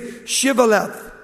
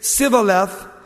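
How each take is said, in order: First: The word begins with a sh sound. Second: The word begins with an s sound. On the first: The speaker is from Gilead. The speaker calls it right. "You have to say Shivaleth" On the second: The speaker is an Ephraimite. The speaker calls it wrong. "They couldn't pronounce the CH"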